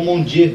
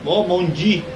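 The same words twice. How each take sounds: First: Dieu ending in an open E, "djê"; French pronunciation, DJÊ. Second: Dieu ending in an EE sound, "dji"; French pronunciation, DI. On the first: Teacher offering the other French form, Dieu ending in an E. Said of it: "qual das duas formas é correta". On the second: Teacher quoting a Frenchman, Dieu pronounced with a final EE. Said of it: "ele fala Di". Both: Shown as a demonstration.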